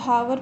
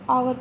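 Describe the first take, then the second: First: The word begins with an audible h sound. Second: The word begins directly with a vowel. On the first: The speaker calls it wrong. "बहुत सारे बच्चे हावर पढ़ेंगे" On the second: The speaker calls it right. "इसको आवर पढ़ते हैं"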